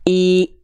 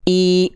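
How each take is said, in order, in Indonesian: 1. Vokalnya keluar tertutup, seperti 'ee'. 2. Vokalnya keluar tertutup, seperti 'ee'.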